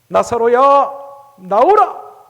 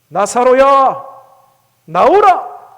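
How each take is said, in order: No difference in how they are said.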